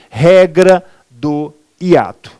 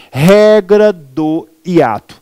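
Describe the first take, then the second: First: Regra do hiato again drawn out, regra stressed; repeated slow rule. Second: Regra do hiato drawn out, regra stressed; slow emphatic rule. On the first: Teacher repeating the rule for emphasis, slow. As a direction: hammer the rule home. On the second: Teacher repeating the rule to the class, slow and stressed. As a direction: say it like a rule to memorize. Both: Shown as a demonstration. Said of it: "Eu repito".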